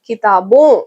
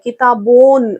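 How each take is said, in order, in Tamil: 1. முடிவில் லேசான மூக்கொலி மட்டுமே உள்ளது. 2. இறுதி n முழுமையாகவும் அழுத்தமாகவும் உச்சரிக்கப்படுகிறது. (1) "லைட்டா நாசல் சவுண்ட் கொடுத்தா போதும்" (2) "அந்த எண்ணெய் சேர்த்து சொல்றீங்க"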